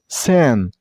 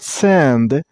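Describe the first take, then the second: First: The syllable ends without a D sound. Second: The syllable ends with a D sound. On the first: The speaker calls it right. "you should drop the D here" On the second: The speaker calls it wrong. "So not sand"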